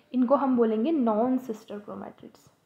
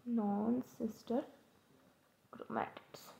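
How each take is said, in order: First: Said in the usual way. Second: non sister chromatids said slowly and much softer, pausing between words, chromatids whispered; drawn out softly so students can note it down; slow soft repeat. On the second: Shown as a demonstration. Teacher to students, softly and slowly repeating the term for notes.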